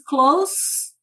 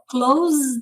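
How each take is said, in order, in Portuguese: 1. A palavra termina com um som de S sibilado. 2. A palavra termina com um som de Z vibrado. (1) "o segundo é um sonzinho de S" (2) "ali é um som de Z, no primeiro verbo fechar"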